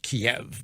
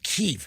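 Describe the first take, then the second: First: The name is said the common, everyday way. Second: The name is said the insider, official way. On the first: Ordinary people say it like this. "us plebes pronounce it Kiev" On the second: Diplomatic insiders say it like this. "they call it Kyiv because they're insiders"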